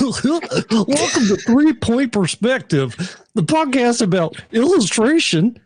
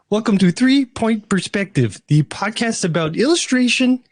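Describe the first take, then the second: First: It is said in a Goofy voice. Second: It is said in a Kermit the Frog voice.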